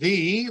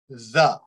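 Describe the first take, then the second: First: The vowel is a strong long E sound. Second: The vowel is a short weak uh sound. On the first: The next word starts with a vowel. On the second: The next word starts with a consonant.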